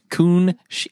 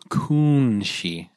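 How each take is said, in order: First: The name is said at normal speed. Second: The name is said slowly and carefully.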